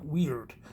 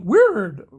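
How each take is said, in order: First: It sounds like the modern English word weird. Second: It is sounded out following its old spelling. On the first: "It's actually pronounced more like weird" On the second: "using Dutch spelling"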